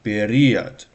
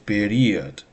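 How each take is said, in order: Both takes have the same delivery.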